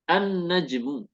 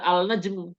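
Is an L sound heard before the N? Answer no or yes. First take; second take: no; yes. First: The L is silent and the N is doubled. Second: The L is sounded before a single N. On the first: The speaker calls it right. "alnya tidak terbaca ... dia langsung masuk ke huruf tersebut dengan ditandai adanya tasdid" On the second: The speaker calls it wrong. "Nggak boleh dibaca al-najmu"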